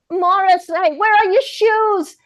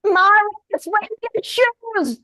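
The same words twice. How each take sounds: First: High, slow call; lone voice in an ad. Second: High, slow call from afar; lone voice in an ad. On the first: Shown as a demonstration. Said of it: "Say it again". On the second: Retold or imitated. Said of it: "a lone voice came through it".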